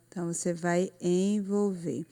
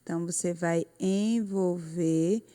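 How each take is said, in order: Both takes have the same delivery.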